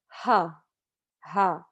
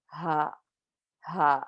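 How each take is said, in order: First: "ha" with an English H, wrongly; wrong plain H ha. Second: "Ha" from the bottom of the throat, vibrating; throaty ha. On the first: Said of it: "That would be wrong". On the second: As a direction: feel "Ha" buzz low in the throat. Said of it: "you say the letter ha". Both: Shown as a demonstration.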